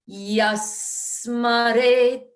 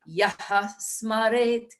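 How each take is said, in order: First: No extra syllable is heard before 'smaret'. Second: An extra 'ha' syllable is heard before 'smaret'.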